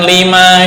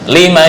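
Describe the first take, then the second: First: The final vowel is drawn out long. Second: The final vowel is short. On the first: It turns into a negation. The speaker calls it wrong. "bukan lima syahid, itu kepanjangan" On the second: It asks why. The speaker calls it right. "Lima syahidtum"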